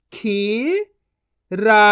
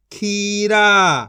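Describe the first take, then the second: First: खीरा split into खी, pause, रा; syllable by syllable. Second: खीरा as one joined word; long खीरा, falling at the end; blended reading. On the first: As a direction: sound out खीरा in two syllables. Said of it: "एक एक अक्षर का उच्चारण करके". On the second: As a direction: join खी and रा. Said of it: "इनको आपस मिला के पढ़". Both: Shown as a demonstration.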